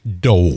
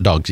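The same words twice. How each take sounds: First: The vowel is long and drawn out. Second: The vowel is short and plain. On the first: This is how the team name goes. The speaker calls it right. "Dogs with a W" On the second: This is not how the team name goes. The speaker calls it wrong. "It's not dogs"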